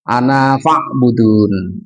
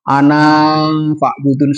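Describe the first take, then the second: First: The last vowel of 'ana' is short. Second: The last vowel of 'ana' is drawn out long. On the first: The speaker calls it right. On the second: The speaker calls it wrong.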